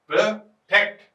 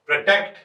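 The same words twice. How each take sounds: First: protect broken in two, a short gap before टेक्ट; split into syllables. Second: Said in the usual way. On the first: Shown as a demonstration. Teacher showing that protect has two syllables, split in two. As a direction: say protect as two separate beats, pro, टेक्ट. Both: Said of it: "तो दो हो गए".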